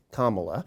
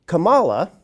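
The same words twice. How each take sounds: First: Kamala com ênfase na primeira sílaba, KA-ma-la, mais baixo; correct Kamala. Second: Kamala com ênfase na segunda sílaba, ka-MA-la, mais alto e agudo; wrong Kamala. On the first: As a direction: stress Kamala on the first syllable, KA-ma-la. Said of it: "people ought to say this correctly". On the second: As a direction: stress Kamala on the second syllable, ka-MA-la. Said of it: "putting the emphasis on the second syllable and saying Kamala". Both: Shown as a demonstration.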